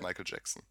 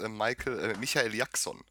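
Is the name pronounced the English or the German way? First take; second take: English; German. First: The name is pronounced with English sounds. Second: The name is pronounced with German sounds. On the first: The speaker calls it wrong. "und nicht [name]" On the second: The speaker calls it right. "ich sage ja auch halt Michael Jackson"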